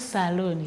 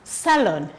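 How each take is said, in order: First: The second syllable has a long 'oo' vowel. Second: The second syllable has a short 'o' vowel. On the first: The speaker calls it wrong. "it is not saloon" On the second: The speaker calls it right. "it is salon"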